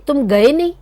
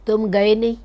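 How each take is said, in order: First: One word carries strong emphasis. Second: It is said plainly without strong emphasis.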